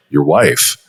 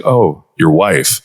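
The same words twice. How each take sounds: First: "Your wife" with a low falling tone; parroting "Your wife" in a low downward inflection. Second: "Oh, your wife" said slowly, pitch falling low; slow, lowered parroting of "Oh, your wife" as tactical empathy; downward inflection. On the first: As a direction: repeat "Your wife" back, dropping the pitch. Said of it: "like, a downward tone of voice". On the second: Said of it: "even the downward inflection". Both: Shown as a demonstration.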